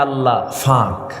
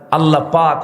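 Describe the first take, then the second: First: It is said the Noakhali way, p becoming f. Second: It is said with a standard Bengali p sound.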